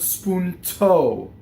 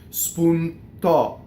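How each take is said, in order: First: Breathy T with a gliding American O vowel. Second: Crisp unaspirated T with a pure Italian O. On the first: The speaker calls it wrong. "Notice I did a very strong English American accent with the diphthong on the O" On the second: The speaker calls it right. "You want spoon to"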